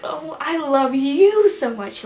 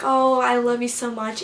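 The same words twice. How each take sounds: First: Higher, louder, slow imitated voice thing; Luke. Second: Said in the usual way. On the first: Luke hugging a fan back, his drawn-out voice thing imitated. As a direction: swoop up and stretch the words out. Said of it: "how he does that voice thing". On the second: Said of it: "I hugged him and I was like".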